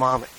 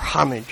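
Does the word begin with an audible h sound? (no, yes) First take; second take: no; yes. First: The word starts without an h sound. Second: The word starts with an h sound.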